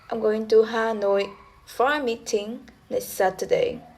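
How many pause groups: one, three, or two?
three. It is split into three tone units.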